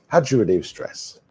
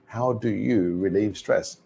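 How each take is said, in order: First: Connected-speech take of "How do you relieve stress"; reduced linked form. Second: "How do you" in full, each word distinct, before relieve stress; unreduced "do you" in the question; careful, measured citation take of "How do you relieve stress"; full careful form. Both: Shown as a demonstration. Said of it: "let's think about that pronunciation".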